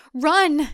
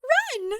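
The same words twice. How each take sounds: First: A sharp, loud command; Audrey urging the women to flee, loud; urgent. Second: High, airy giggled echo; a silly mocking giggle; giggling. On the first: Acted. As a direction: order them out. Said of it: "she says". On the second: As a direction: spellbound woman giggling at the order. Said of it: "one giggles".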